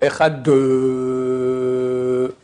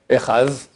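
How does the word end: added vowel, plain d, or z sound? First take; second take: added vowel; z sound. First: The final d is followed by an extra vowel. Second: The word ends with a z sound. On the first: "c'est complètement faux" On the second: "ils se trompent, ils font un zain"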